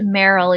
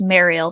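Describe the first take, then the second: First: The name sounds like 'Meryl'. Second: The name sounds like 'Mariel'. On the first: This is how the speaker personally says it. The speaker calls it wrong. "I pronounce it Meryl" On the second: This is believed to be the proper pronunciation. The speaker calls it right. "I think it's pronounced Mariel"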